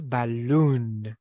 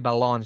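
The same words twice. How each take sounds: First: The stressed vowel is an 'oo' sound. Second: The stressed vowel is an 'oh' sound. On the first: The speaker calls it right. "So we say balloon" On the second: The speaker calls it wrong. "Don't say balloon"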